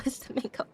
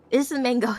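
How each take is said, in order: First: Giggled and breathed out, no voice; laughing whisper. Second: Said in the usual way. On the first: Real, not acted. Repeating the mango excuse to chat, a giggling whisper. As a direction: say it through a stifled laugh.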